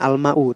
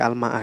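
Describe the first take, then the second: First: The word ends with an 'u' vowel. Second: The word ends with an 'a' vowel. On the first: The speaker calls it wrong. "Bukan al-ma'u" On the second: The speaker calls it right. "tapi al-ma'a ya"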